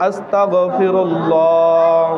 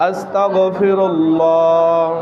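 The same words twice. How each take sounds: Both takes have the same delivery.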